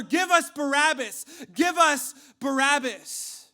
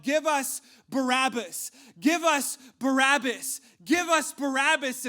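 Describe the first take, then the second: First: Full-force high mob chant; louder crowd shout. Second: Loud, high chant of an angry mob; crowd shouting. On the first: Crowd overrides Pilate's protest, shouting even louder. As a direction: shout it all the louder, drowning out objections. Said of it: "they shouted all the louder". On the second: Crowd answers Pilate's choice of prisoner, shouting. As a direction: shout it slowly, punching each word. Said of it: "the crowd began to shout". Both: Acted.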